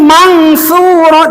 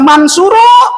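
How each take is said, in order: First: The n is hidden as a nasal ng. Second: The n is pronounced as a clear n. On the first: The speaker calls it right. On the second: The speaker calls it wrong.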